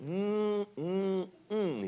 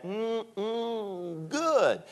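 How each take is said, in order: First: High, hummed mm mm mm of relish; Andy Griffith mmm. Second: Savoring mmm good. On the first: Daddy showing his son the pizza, high savoring hum. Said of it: "and he did it, the Andy Griffith". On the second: Daddy demonstrating how to eat pizza, high savoring hum. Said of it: "he did that". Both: Retold or imitated.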